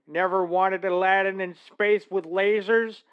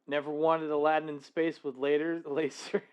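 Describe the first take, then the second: First: It is said in a put-on character voice. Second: It is said in the speaker's normal voice.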